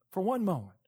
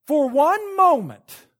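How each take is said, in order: First: "For one moment" softer, dropped low and quiet; soft repeat. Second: "For one moment" slow and louder, leaning on moment; loud slow emphasis. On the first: Preacher to congregation, hushed echo. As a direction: let "For one moment" fall back quietly. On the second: Preacher to congregation, emphatic slow stress. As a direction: land "moment" hard and slow. Preacher repeats key phrase. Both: Real, not acted.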